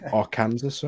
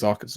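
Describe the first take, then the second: First: It is said as spelled, like Kansas. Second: It is not said as spelled. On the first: The speaker calls it wrong. "I say Arkansas, right? because it looks like it" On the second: The speaker calls it right. "but I think it's Arkansas, right?"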